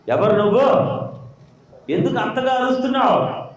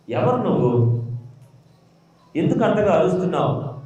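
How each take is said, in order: First: The angel asks again, higher and more insistent; angel's sharper repeat. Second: Said in the usual way. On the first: Retold or imitated. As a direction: press the question a second time, raised. (దేవదూత గట్టిగా మళ్ళీ అడగడం) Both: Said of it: "దేవుడు దూత దిగొచ్చింది".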